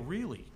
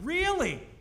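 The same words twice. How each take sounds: First: It sounds sympathetic and pitying. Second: It sounds impressed and admiring. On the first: The listener must have enormous patience. "And with Jen, they go" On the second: The listener is lucky to have such a partner. "They go to me, they go"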